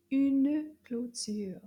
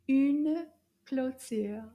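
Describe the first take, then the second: First: Very slow Une clôture; slow French model. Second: Very slow, Une a little louder; slow French repeat. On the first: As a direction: spell out each sound slowly. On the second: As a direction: model it slowly once more. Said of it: "Féminin". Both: Shown as a demonstration.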